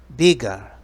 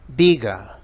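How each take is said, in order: Both takes have the same delivery.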